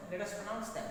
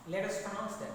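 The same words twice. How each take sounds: The two takes are said the same way.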